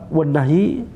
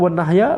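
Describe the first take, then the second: First: The word ends with an 'i' vowel. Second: The word ends with an 'a' vowel. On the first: The word is grammatically joined to 'monotheism'. "bisa dibaca wan nahyi" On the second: The word is grammatically joined to 'the call'. "Ini bisa dibaca wan nahya"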